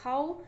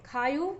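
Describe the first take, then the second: First: The word ends with a plain 'o' sound. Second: The word ends with a 'yo' sound. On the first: This is the Kannauji dialect form. "खायो की जगह खाओ" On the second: This is the Braj dialect form. "खायो की जगह खाओ"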